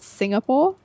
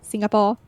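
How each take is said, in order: First: One syllable is clearly stressed over the others. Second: All syllables get even stress, in a flat tone. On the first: This is how British speakers say it. "the British way of pronouncing is Singapore" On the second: This is how locals in Singapore say it. "Singaporeans will pronounce as Singapore"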